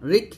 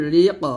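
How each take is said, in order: First: "রিক" ending on a stopped k with no bounce; wrong closed K. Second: "রি ক" with the final qaf released in an echoing bounce; qalqalah bounce. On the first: Teacher showing what not to say, unbounced "রিক". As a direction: shut "রিক" off as the mistake. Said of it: "রিক বলবেন না". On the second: Teacher modelling qalqalah for students, bounced "রি ক". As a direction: bounce off the last sound of "রি ক". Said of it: "এখানে কলকল আদায় করতে হবে". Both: Shown as a demonstration.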